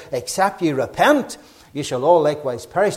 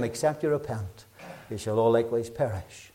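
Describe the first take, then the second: First: Said in the usual way. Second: Much softer, grave and low; soft solemn scripture warning; hushed repeated warning. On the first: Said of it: "he says the exact same thing". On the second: Shown as a demonstration. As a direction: say it again quietly for weight. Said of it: "Just in case we missed it".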